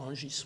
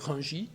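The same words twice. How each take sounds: First: The name ends with an S sound. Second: The name ends without an S sound. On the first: The speaker calls it wrong. "et pas Rungis" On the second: The speaker calls it right. "on ne devrait pas prononcer le S à la fin, on devrait dire Rungis"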